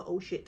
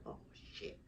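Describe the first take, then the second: First: Said in the usual way. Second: Breathless whispered curse; whispered oh shit. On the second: Retold or imitated. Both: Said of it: "remembering scary moment".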